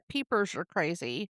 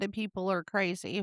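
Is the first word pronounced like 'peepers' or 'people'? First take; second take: peepers; people. First: The first word sounds like 'peepers'. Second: The first word sounds like standard 'people'. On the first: "he was pronouncing it" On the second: "it was the song"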